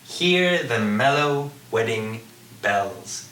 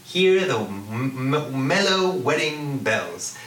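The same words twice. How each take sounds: First: "hear the mellow wedding bells" slow, word by word; measured reading, stressing the vowel in "mellow", "wedding", "bells"; assonance demonstration. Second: "Hear the m-, m-, mellow wedding bells" savoured, humming the M; slow, connected "mellow wedding bells" with lingering sounds; drawn-out assonance. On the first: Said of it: "repetition of a vowel sound in a stressed syllable". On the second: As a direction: roll "m-, m-, mellow" round the mouth. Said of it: "See how that feels?". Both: Shown as a demonstration.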